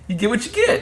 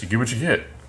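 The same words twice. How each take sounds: First: It is said in a cheerful, upbeat tone. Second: It is said in a glum, frowning tone. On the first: Whatever happens is welcome. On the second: Whatever happens must be put up with.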